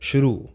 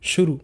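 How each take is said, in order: First: The final u vowel is long. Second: The final u vowel is short. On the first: The speaker calls it right. "र बड़ा है ... ये सही" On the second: The speaker calls it wrong. "ये छोटे वाला है"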